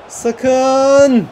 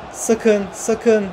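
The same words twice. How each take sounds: First: Loud, high, drawn-out "Sakın"; alarmed shout. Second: Said in the usual way. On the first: Real, not acted. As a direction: cry out to stop the danger. Alarm as rival is about to score.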